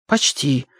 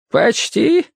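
First: Said in the usual way. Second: «Почти?» higher, with rising questioning tune. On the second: A narrator's reading. Old man queries boy's answer, «Почти?» rising high. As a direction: echo «Почти» back as a question, pitch jumping up. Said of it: "спросил он".

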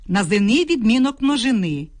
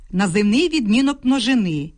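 No difference in how they are said.

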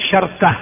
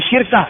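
First: شركة as sharka; middle vowel dropped. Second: شركة as shirka; vowel moved forward. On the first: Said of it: "أن تخفف بتسكين الوسط". (شركة بتسكين الراء وفتح الشين) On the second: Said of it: "أو بنقل حركة الوسط إلى الفاء". (شركة بكسر الشين وتسكين الراء) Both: Shown as a demonstration.

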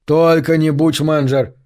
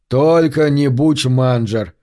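First: Near shout. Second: Passionate protest. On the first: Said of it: "Кочевник почти сорвался на крик". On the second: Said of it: "заявил кочевник с не меньшей страстностью". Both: A narrator's reading.

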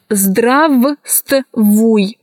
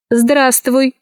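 First: Здравствуй in pieces, first В fully sounded; spelling pronunciation. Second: Здравствуй said as здраствуй; silent V. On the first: Teacher showing how здравствуй is written, spelled-out reading. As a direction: sound every consonant of здравствуй, broken up. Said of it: "Пишется". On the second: Teacher showing how здравствуй is pronounced, first V dropped. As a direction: drop the first В in здравствуй, all joined. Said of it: "произносится". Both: Shown as a demonstration.

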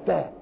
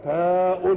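First: "تاء" said as the bare sound "ta"; letter sound. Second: "تاء" drawn out as the full name "taa-un"; letter name. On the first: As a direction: say "تاء" as just "ta", no ending. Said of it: "وكا بتنطقها تاء". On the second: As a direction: stretch "تاء" and sound its "-un" ending. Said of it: "اسمها إيه؟". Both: Shown as a demonstration.

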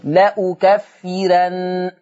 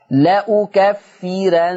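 First: لأكفرن very slow, ra thin; light ra demo. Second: لأكفرن slow with a thin light ra; light ra demo. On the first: Teacher repeating لأكفرن after explaining. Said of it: "ومسبوقة بكسر أصلي". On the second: Teacher showing the light ra in لأكفرن. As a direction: draw out لأكفرن, ra kept light. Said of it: "ترقيق الراء". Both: Shown as a demonstration.

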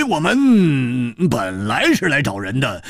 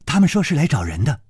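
First: Slow, falling, stretched words; slow sly drawl. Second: Fast, rising reply; quick polite report. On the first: 蝴蝶花 slowly explains their visit, feigning innocence. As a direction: draw it out innocently. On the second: 九妹 bows and reports quickly to her mistress. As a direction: rattle it off briskly, ending up. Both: Acted.

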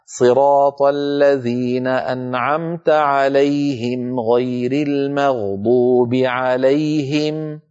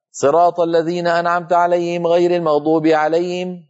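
First: Slow chanted recitation, "عليهم" with distinct ه; measured recital, each "عليهم" ending in a clean -him; clear audible ه. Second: Higher recitation, ه in "عليهم" blurred to alay'im; beginner's wrong reading. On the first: Teacher reciting Al-Fatiha correctly, clearly articulated. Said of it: "فنبين صوت الهاء". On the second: Teacher imitating beginner students reading Al-Fatiha, mispronounced. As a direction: lose the ه in each "عليهم". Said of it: "يقول بعض الطلاب". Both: Shown as a demonstration.

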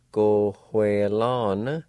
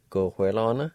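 First: Slow demo. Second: Said in the usual way. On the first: Shown as a demonstration. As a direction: go hue lan drawn out very slowly. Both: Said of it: "And together".

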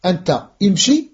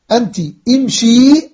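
First: أنت ending in "a", then امشي: anta, imshi; masculine pronoun form. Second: أنت ending in "i", then a long-ended امشي: anti, imshii; feminine pronoun form. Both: Shown as a demonstration. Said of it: "الأمر عندنا أربع ضمائر".

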